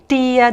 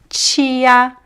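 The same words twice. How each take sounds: First: The word begins with a plain 't' sound. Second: The word begins with a 'ch' sound. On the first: "Some people would say tia" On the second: "in my accent, ... I will always pronounce the T as chi"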